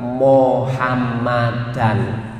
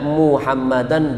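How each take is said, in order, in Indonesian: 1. Suku kata pertama diucapkan dengan vokal o. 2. Suku kata pertama diucapkan dengan vokal u. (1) "bukan mo tapi mu" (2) "biasakan membaca Muhammadan"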